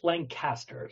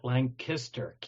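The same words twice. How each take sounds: First: The middle syllable is not said like 'kiss'. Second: The middle syllable is said like 'kiss'. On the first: This is how people from elsewhere say it. "the rest of the world calls it Lancaster" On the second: This is how local residents say it. "us locals call it Lancaster, K I S"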